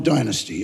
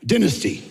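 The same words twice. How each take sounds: First: "Dynasty" said DIE-nuh-stee; long first vowel. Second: "Dynasty" said DIN-uh-stee; short first vowel. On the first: Ruling out the other show, "Dynasty" said DIE-nuh-stee. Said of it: "It was before your Dynasty". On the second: Naming the Australian series, "Dynasty" said DIN-uh-stee. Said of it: "not Dynasty". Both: Shown as a demonstration.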